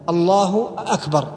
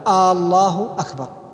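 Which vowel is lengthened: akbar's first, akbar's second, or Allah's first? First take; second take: akbar's first; Allah's first. First: The first vowel of akbar is drawn out long. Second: The first vowel of Allah is drawn out long. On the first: It turns akbar into a question. "أو الاستفهام في لفظة أكبر" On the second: It turns the phrase into a question about God. "الهمزة المقدمة الاستفهامية قبل لفظ الجلالة"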